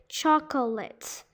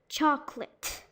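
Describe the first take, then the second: First: The word is said with three syllables. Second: The word is said with two syllables. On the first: The speaker calls it wrong. "people try to pronounce all the syllables" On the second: The speaker calls it right. "it's supposed to be chocolate"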